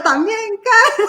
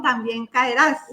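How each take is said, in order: First: Loud laughing mock shout of the taunt. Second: Said in the usual way. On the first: Laughing while shouting the taunt people thought she meant. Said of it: "yo estaba haciendo el".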